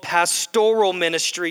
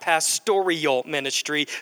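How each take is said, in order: First: Pastoral is said with no extra 'ee' sound. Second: Pastoral is said with an extra 'ee' sound. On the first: The speaker calls it right. "It is called pastoral ministry" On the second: The speaker calls it wrong. "There is no I in pastoral"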